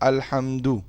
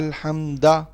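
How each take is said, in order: First: The word ends with an u vowel. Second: The word ends with an a vowel. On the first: The speaker calls it right. "दाल के ऊपर पेश पड़ी ना" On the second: The speaker calls it wrong. "अब ये गलत है"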